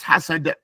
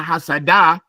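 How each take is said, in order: First: The final consonant ends with a slight echoing bounce. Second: The final consonant is followed by a full vowel. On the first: The speaker calls it right. "but it's" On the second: The speaker calls it wrong. "It's not like"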